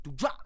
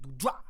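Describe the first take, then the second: First: The word is slurred and the final p is dropped. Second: The word is slurred and the final p is dropped.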